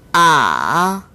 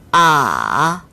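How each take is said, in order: Both takes have the same delivery.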